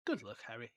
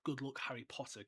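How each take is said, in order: First: Low, soft murmur. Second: Lightly voiced movie farewell; a soft hint of the film Dumbledore. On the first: A narrator's reading. Reading the book's plainer goodbye for comparison, murmured. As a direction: murmur it briefly, pitched down. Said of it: "he murmured". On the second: Preferring the movie's line over the book's, softly quoted. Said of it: "I, I actually prefer the".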